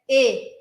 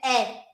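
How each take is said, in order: First: The vowel is said the French way. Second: The vowel is said the Portuguese way. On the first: The speaker calls it right. "Em francês é e" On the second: The speaker calls it wrong. "em português, você vai achar que é é"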